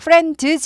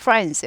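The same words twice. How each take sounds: First: The d sound is pronounced clearly. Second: The d sound is swallowed and barely heard. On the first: The speaker calls it wrong. "friends 하지 않고" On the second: The speaker calls it right. "드가 발음이 안 나는 건 아닌데 묻힌다고 했습니다"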